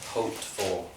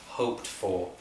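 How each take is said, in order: No difference in how they are said.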